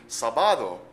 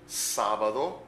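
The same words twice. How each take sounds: First: The stress is on the second syllable. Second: The stress is on the first syllable. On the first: "If we didn't have that accent written in there, then of course it would be sábado" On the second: "Notice the accent on the first syllable"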